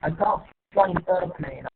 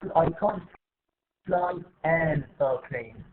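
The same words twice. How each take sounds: First: The article 'an' is weak and unstressed. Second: The article 'an' is fully stressed. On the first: The speaker calls it right. "But we say an, an, an" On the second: The speaker calls it wrong. "ما بقول ... No, this is wrong"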